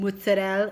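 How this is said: It is said with an Italian American pronunciation. The speaker sounds like an Italian American trying to be cool. The speaker calls it wrong. "mozzarella is like you're an Italian American who wants to be cool"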